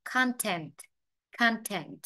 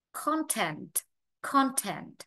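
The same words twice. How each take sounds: First: "content" opened to "KAHN-tent"; long A. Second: "content" with a rounded O in the first syllable; O vowel. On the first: Teacher drilling the second option, "content" with long ah. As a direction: say "content" with an American ah first. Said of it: "hoặc là A dài". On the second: Teacher drilling the first option, "content" with short O. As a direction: say "content" as British "KON-tent". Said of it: "ta vừa phát âm O hoặc là A dài". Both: Shown as a demonstration.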